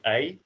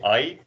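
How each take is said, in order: First: The vowel starts from e and ends on i. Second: The vowel does not start from an e sound. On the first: The speaker calls it right. "we start with an e and you end on an I" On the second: The speaker calls it wrong. "what a lot of people do is say I"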